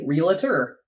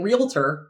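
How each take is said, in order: First: The word is said with an extra middle vowel. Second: The word is said without an extra middle vowel. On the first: The speaker calls it wrong. "most of us say realtor" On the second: The speaker calls it right. "he's saying realtor, which is correct"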